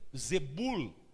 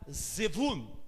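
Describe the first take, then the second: First: The middle consonant is a B sound. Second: The middle consonant is a V sound. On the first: "outros vão falar Zebul" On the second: "alguns vão falar Zevul"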